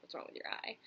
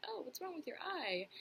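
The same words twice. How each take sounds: First: Said in the usual way. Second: High-pitched mimicry of a nosy question; mock the questioner in a higher voice; imitating tactless dinkus. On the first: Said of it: "straight up be like". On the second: Some dinkus asking about the eye, high-pitched mock imitation. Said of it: "dinkus who's like".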